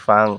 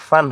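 First: ফাং closed with a nasal ng, no tongue-tip n; ফাং with a humming ng ending; nasal anusvar ending. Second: ফান with a plain dental n at the end; ফান ending on a crisp tongue-tip n; wrong dental n. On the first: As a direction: end ফাং in the nose as anusvar. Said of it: "এখন হবে ফা, ফাকার ফা অনুসুকার ফাং". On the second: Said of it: "দন্তান্ন ফান হবে না". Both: Shown as a demonstration.

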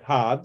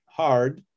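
First: "hard" non-rhotic, like "hahd"; hard without R. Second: "hard" with a sounded American-style R; R pronounced in hard. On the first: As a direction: drop the R in "hard", leaving a long open vowel. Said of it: "folks who tend to say their R's". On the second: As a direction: say "hard" keeping the R audible before D. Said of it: "is R in it". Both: Shown as a demonstration.

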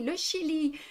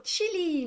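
First: "Chili" with a French sh, high-pitched; French pronunciation. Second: "Chili" as in Spanish or English, high-pitched; foreign pronunciation. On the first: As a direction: say "Chili" as "shi-li". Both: Shown as a demonstration. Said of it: "en anglais, en espagnol".

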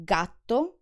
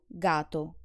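First: Gatto with a pause and long tt; doubled gatto; double tt held. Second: Gato with a short single t; quick t in gato, no hold; undoubled gato. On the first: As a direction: hold the tt in Gatto. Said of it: "the difference when I pronounce the double consonant". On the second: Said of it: "and when I don't". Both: Shown as a demonstration.

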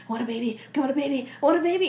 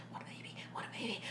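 First: Building chant. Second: Fast breathless whisper. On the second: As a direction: hiss it fast and unvoiced. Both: Acted. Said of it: "she's like".

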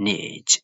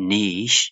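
First: Niche as "nitch"; ch ending in niche; American niche. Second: Niche as "neesh"; British niche. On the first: Teacher repeats for learners, American niche as "nitch". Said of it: "U S လို့ခေါ်တဲ့ American accent". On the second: Teacher repeats for learners, British niche as "neesh". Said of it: "U K လို့ခေါ်တဲ့ British accent". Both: Shown as a demonstration.

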